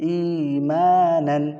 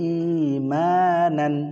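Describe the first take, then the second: No difference in how they are said.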